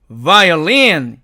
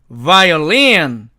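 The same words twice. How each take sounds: The two takes are said the same way.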